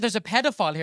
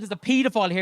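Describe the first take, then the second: First: Pedophile said as "PED-uh-file"; short "eh" at the start of pedophile; short PED pronunciation. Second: Pedophile said as "PEE-duh-file"; long "ee" at the start of pedophile; long PEE pronunciation. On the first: Same sentence, milder-sounding pronunciation. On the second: Same sentence, harsher-sounding pronunciation. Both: Shown as a demonstration.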